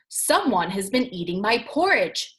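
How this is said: It is said in a great big deep voice.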